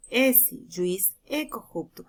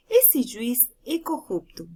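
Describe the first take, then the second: First: Slower, pausing after "Esse" and "juiz", as if addressing the judge; vocative commas, slow. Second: Said in the usual way. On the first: Shown as a demonstration. Teacher reads the vocative version slowly, addressing the judge. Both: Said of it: "Não é o mesmo dizer".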